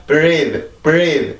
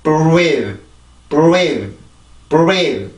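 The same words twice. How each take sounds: First: "breathe" with R made without lip rounding; plain "bree" onset in "breathe", no w-like glide; wrong, unrounded take. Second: "breathe" with lips forward on R, like "buweedh"; long stressed "breathe" with a w-like glide after B; correct rounded R. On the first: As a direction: model "breathe" wrongly, lips not coming forward. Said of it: "이게 아니라". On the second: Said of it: "이렇게 발음이 됩니다". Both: Shown as a demonstration.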